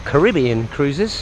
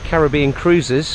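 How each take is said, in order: First: It is said in an American accent. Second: It is said in a British accent.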